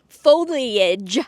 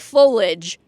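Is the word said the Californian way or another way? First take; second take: other; Californian. First: It is said a non-Californian way. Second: It is said the Californian way.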